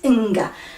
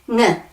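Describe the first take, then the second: First: The n and g are sounded separately. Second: The n and g merge into one sound. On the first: The speaker calls it wrong. "that wouldn't be a digraph because that's two sounds" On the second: The speaker calls it right. "This is N"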